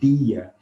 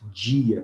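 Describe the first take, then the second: First: The d is a plain d sound. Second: The d sounds like the j in jeans. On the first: This is not how most of Brazil says it. "Nós não falamos dia" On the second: This is how most of Brazil says it. "olha como nós falamos dia"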